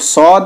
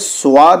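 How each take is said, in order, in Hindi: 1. इसे मोटा बोला जाता है, गोल aw स्वर के साथ। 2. aa से पहले w की सरकन के साथ बोला जाता है। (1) "ये भी मोटा पढ़ा जाता है" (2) "स्वाद नहीं बोलेंगे"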